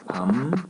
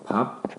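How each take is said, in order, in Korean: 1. 첫 음절은 m 소리로 끝나요. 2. 첫 음절은 p 소리로 끝나요. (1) "이거 어떻게 바뀌었어요? 밤, 물 해서요" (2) "밥, 물 있죠?"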